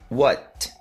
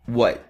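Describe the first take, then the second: First: The final T is clearly released with air. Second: The final T is held without releasing air. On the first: "T pronunciado da maneira mais exagerada" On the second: "a forma mais comum do dia a dia"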